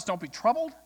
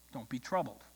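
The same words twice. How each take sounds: First: Rising, challenging quote; retold disbelief, ending on a rise; incredulous echo. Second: Low, soft retold comfort; gently quoted calm; quiet reassurance. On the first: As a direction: throw the comfort back as a question. Protest throws the reassurance back at God. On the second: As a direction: settle the congregation with a hushed, falling line. Preacher's repeated reassurance to frightened church.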